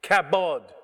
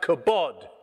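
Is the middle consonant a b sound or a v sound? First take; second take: b sound; b sound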